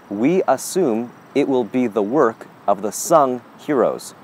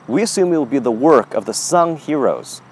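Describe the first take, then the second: First: The sentence is said at a slow pace. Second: The sentence is said at a normal pace.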